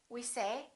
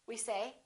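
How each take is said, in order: The two takes are said the same way.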